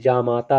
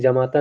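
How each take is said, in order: First: The first syllable has a long aa vowel. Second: The first syllable has a short a vowel. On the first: The speaker calls it right. "जा पर भी मात्रा रहेगी बड़ा आ की" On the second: The speaker calls it wrong. "बहुत लोग उच्चारण में जमाता कहते हैं, लेकिन जमाता नहीं"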